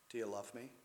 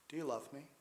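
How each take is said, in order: First: It is said in a compassionate tone. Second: It is said in a compassionate tone.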